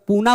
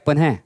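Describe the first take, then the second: First: It ends in a plain long vowel, no h. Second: It ends with a short breathy h sound. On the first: The speaker calls it wrong. "पूना पढ़ लेते हैं" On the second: The speaker calls it right. "जबकि है क्या पुनः"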